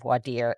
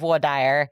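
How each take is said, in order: First: It uses the pronunciation common elsewhere. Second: It uses the regional Texas pronunciation. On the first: This is how most places say it. "it's supposed to be voir dire in most jurisdictions" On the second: This is how it is said in Texas. "that is a very Texas thing"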